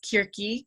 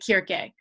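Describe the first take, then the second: First: The name is said in modern Greek style. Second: The name is said in reconstructed ancient Greek style. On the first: "modern Greek often says Kirki" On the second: "if I were teaching a course on ancient Greek, I would say Kirke"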